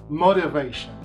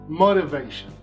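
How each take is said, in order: First: The word is said in an American accent. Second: The same.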